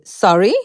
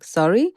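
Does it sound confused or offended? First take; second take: offended; confused. First: It sounds indignant and challenging. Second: It sounds puzzled and unsure.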